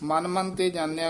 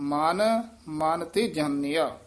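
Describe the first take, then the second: First: The words run together without any pause. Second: A short pause follows the first word. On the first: The speaker calls it wrong. "ਇਕੱਠਾ ਨਹੀਂ ਕਹਿਣਾ" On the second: The speaker calls it right. "ਮਨ ਇੱਥੇ ਯਮਕ ਲਾ ਦੇਣੀ ਹੈ।"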